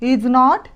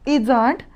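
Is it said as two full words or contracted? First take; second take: two words; contracted. First: It is said as two full words. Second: It is said as one contracted word.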